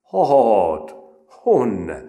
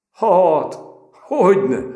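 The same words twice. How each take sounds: First: "Hát, honne" in broad rustic village dialect; peasant dialect. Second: High, loud, laughing reply. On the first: Retold or imitated. Recruit answering in broad peasant dialect. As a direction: say "honne" with broad country vowels. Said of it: "a leggarázdább népszínmű kiejtéssel". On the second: A narrator's reading. The recruit laughing back at Péter, amused. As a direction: laugh it off as you answer. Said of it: "mondta Apagyi felnevetve".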